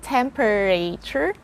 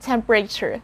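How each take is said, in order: First: The vowel after the P is pronounced. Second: The vowel after the P is dropped. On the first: The speaker calls it wrong. "So it's not temperature" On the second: The speaker calls it right. "It's the letter E after P"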